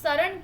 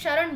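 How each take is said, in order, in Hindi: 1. शब्द की शुरुआत सादी s ध्वनि से होती है। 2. शब्द की शुरुआत sh ध्वनि से होती है। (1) "शरण की जगह" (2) "शरण बोलना है"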